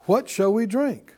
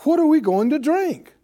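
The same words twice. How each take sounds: First: Said in the usual way. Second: Higher, louder grumbler's demand; pressuring demand. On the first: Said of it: "an inquiry for information's sake". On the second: Acted. Israelites pressing Moses for water, pressuring demand. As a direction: press the question hard, pitched up. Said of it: "This is pressure".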